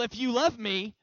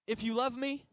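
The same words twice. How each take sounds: First: The voice sounds angry and scolding. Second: The voice sounds gentle and warm. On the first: He is displeased that we do not love him enough. The speaker calls it wrong. "like he's mad because we don't love him enough to obey what he said" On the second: Loving him will naturally lead to obeying him. The speaker calls it right. "I think it's more like"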